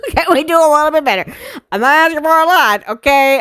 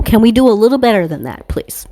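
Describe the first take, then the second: First: Fast, high-pitched comic whine; laughing, exasperated high-pitched begging; high pleading voice. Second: Said in the usual way. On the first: Real, not acted. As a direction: plead quickly in a squeezed high voice. Repeats plea in high voice after laughing.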